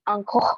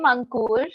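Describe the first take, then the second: First: The name is said with a French accent. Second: The name is said in its own Indian pronunciation. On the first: French speakers say it this way. "the French people call me" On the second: This is the name's own pronunciation. "this is uh, how my name is pronounced"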